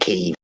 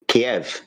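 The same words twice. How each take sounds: First: The name is said closer to the Ukrainian way. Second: The name is said in the traditional English way. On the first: This is how news announcers now say it. "everyone's pronouncing it Kiev" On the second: This is the customary local way of saying it. "We used to call Kiev Kiev because that's how we say it"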